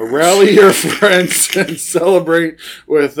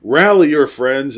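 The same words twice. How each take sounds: First: Reread, louder, breaking into laughter; laughing retake. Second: Said in the usual way. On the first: Shown as a demonstration. Rereading beer label to cohost, laughing. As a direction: try again, laughing through it.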